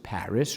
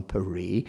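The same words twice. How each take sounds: First: PARIS with a sounded S; anglicized Paris. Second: PARIS said as "pa-REE"; French Paris. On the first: Lecturer cites our tribute, Paris with English S. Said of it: "we decided to pronounce it Paris". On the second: Lecturer cites the native form, Paris as pa-ree. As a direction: silent S in Paris, stress the end. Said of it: "rather than Paris". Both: Shown as a demonstration.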